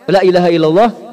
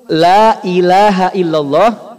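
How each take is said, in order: First: The vowel in 'la' is cut short. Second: The vowel in 'la' is held long. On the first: Surely there is a god besides God. The speaker calls it wrong. "sungguh ada Tuhan selain Allah" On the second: There is no god but God. The speaker calls it right. "artinya tiada Tuhan selain Allah"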